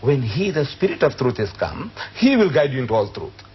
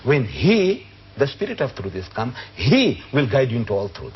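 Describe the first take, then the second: First: The pronouns carry no special stress. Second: The pronouns are said with extra emphasis.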